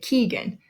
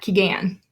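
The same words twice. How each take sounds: First: The stress is on the first syllable. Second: The stress is on the second syllable. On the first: The speaker calls it right. "we say the first syllable just a little bit louder" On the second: The speaker calls it wrong.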